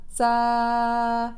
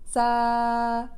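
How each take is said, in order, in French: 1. Le s est court avec un souffle d'air fortement réduit. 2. Le s est court avec un souffle d'air fortement réduit.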